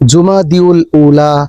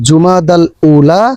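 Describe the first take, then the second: First: The first word is said as Jumadiul. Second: The first word is said as Jumadal. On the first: The speaker calls it wrong. "এই সবগুলাই হলো ভুল উচ্চারণ" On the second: The speaker calls it right. "সঠিক উচ্চারণ হচ্ছে"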